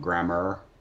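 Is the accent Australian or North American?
North American. It is said in a North American accent.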